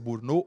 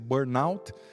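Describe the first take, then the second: First: The word is pronounced the French way. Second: The word is pronounced the English way. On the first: "pronúncia francesa" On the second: "a inglesa"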